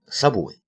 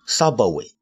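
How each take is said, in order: First: No vowel is added after the b. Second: An extra vowel is added after the b. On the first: The speaker calls it right. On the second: The speaker calls it wrong.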